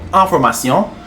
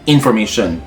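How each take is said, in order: First: It is pronounced the French way. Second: It is pronounced the English way.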